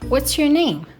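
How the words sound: It is spoken in an American accent. "American people would say"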